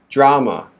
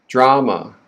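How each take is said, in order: The two takes are said the same way.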